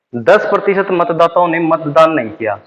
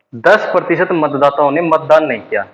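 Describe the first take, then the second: No difference in how they are said.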